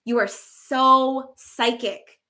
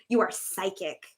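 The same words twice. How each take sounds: First: SO psychic drawn out slow; slow emphatic. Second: Said in the usual way. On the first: Shown as a demonstration. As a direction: stretch out the so, slowly.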